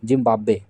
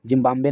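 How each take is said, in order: First: जिम्बाब्वे as "jim-BAAB-be", doubled b; correct pronunciation. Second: जिम्बाब्वे misread as "jim-BAAM-be", with m; wrong pronunciation. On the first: Teacher correcting the mistake for students, जिम्बाब्वे pronounced "jimbabbe". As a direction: say जिम्बाब्वे with b-b, not m-b. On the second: Teacher showing students what not to say, जिम्बाब्वे mispronounced as "jimbambe". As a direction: put an m before the last b in जिम्बाब्वे. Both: Shown as a demonstration. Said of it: "जिम्बाब्वे नहीं".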